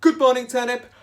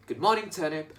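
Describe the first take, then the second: First: High, loud sing-song good morning; cheerful greeting. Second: Said in the usual way. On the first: Retold or imitated. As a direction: greet the turnips brightly. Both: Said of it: "He would say".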